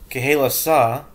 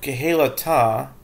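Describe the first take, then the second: First: It is said with an s sound near the end. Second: It is said with a t sound near the end.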